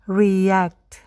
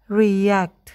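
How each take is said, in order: No difference in how they are said.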